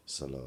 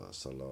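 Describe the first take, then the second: No difference in how they are said.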